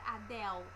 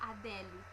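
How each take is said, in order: First: It is said the English way, ending in 'l'. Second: It is said the Brazilian Portuguese way, ending in 'le'. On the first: This is how English speakers say it. "não vamos falar Adele" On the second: This is how most people in Brazil say it. "nós vamos falar Adele"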